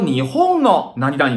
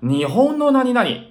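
First: Nihon keeps its high-then-drop pitch accent. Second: Nihon is said on a flat pitch. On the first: The speaker calls it wrong. "我们就不能说日本の何々ですね，这个是不行的" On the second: The speaker calls it right. "我们要说日本の何々啊，变成这种形式了，变成平调了"

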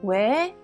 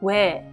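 First: It sounds genuinely curious. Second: It sounds scornful and dismissive.

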